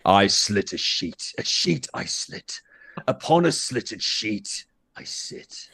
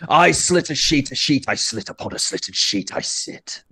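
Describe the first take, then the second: First: It is said at a normal speed. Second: It is said at a fast speed.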